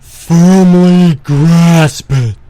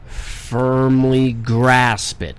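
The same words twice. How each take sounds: First: It is said in a put-on character voice. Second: It is said in the speaker's normal voice.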